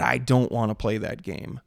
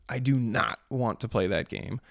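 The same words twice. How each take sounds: First: Said in the usual way. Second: "not" stressed and set apart; firm restatement with weight on "not"; emphatic NOT. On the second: Real, not acted. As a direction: spell out the refusal, landing hard on "not". Restates refusal without contraction.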